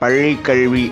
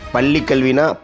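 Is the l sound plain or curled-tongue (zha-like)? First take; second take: curled-tongue; plain. First: The l sound is said with curled tongue. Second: The l sounds are said as plain l.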